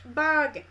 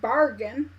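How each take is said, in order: First: It is said with a down east Maine accent. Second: It is said in a general American accent.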